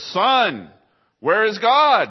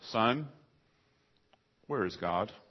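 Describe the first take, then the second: First: It is said in the most booming voice. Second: It is said in a booming voice.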